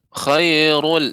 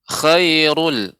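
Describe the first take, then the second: Both takes have the same delivery.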